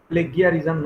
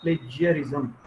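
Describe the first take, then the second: First: The consonant after 'pla' is a hard g. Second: The consonant after 'pla' is a j sound. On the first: The speaker calls it wrong. "प्लेगियरिज़्म नहीं" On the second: The speaker calls it right. "उन्होंने कहा प्लेजियरिज़्म"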